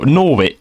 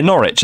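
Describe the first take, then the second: First: Mistakenly saying Norwich as "NOR-witch", W sounded; mispronounced W. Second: Norwich said as "NORR-itch", silent W; corrected pronunciation. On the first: Caller's town stumbled over, Norwich said as "NOR-witch". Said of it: "Norwich, yeah". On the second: Accepting the co-host's correction, Norwich as "NORR-itch" with silent W. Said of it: "that's it, Norwich". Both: Real, not acted.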